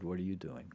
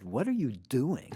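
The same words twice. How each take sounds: First: Said in the usual way. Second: Tom's lazy question, higher and louder; mimicking Tom's drawled question. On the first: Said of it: "He said". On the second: To a friend, imitating Tom's late-night phone question, higher and louder. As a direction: stretch it out like Tom on the phone. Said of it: "Like, literally like that".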